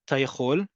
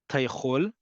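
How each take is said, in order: No difference in how they are said.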